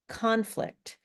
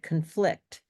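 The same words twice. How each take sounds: First: The stress is on the first syllable. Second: The stress is on the second syllable. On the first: It is a noun meaning a disagreement. "The nouns are stressed on the first syllable" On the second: It is a verb meaning to disagree. "It's the verb, it's the action word"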